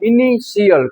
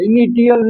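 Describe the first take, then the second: First: The middle consonant is an sh sound. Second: The middle consonant is a t sound. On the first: The speaker calls it right. "ટી પછી આઈ એ આવ્યું તો એનો ઉચ્ચાર સ કરવાનો" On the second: The speaker calls it wrong. "ઇનિટિયલ નહીં"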